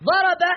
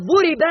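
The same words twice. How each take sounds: First: ضرب said as active "daraba"; all short a vowels in ضرب; unchanged-form vowelling. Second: ضرب said as passive "duriba"; u on the first letter, i on the second of ضرب; changed-form vowelling. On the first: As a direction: pronounce ضرب as DA-ra-ba. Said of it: "ضرب لم تتغير صيغته". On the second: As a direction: pronounce ضرب as DU-ri-ba. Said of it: "مغير الصيغة". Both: Shown as a demonstration.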